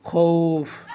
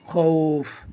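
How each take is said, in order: No difference in how they are said.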